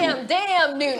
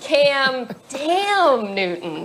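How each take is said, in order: First: It sounds admiring, in Marcus's way. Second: It sounds exasperated at a struggling player.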